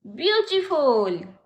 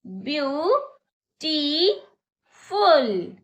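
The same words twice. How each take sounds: First: Said in the usual way. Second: beautiful stretched very slowly, syllable by syllable; slow demo. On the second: Shown as a demonstration. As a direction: spell out beautiful in slow beats. (Beautiful को धीरे-धीरे खींचकर) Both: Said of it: "मेरे साथ बोलिए".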